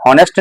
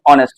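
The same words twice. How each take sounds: First: "हॉनेस्ट" with the h sounded; wrong h sound. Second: "ऑनेस्ट" starting on the o vowel; silent h. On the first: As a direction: start "हॉनेस्ट" on an audible h. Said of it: "इसे हॉनेस्ट नहीं पढ़ेंगे". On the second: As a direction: drop the h from "ऑनेस्ट". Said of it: "ऐसे पढ़ेंगे ऑनेस्ट". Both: Shown as a demonstration.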